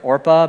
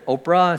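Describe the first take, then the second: First: The R sound comes before the P sound. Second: The P sound comes before the R sound. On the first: This is the name as originally given. The speaker calls it right. "when she was born, it was Orpah" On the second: This is how people ended up saying it. The speaker calls it wrong. "people pronounced it wrong. They said Oprah"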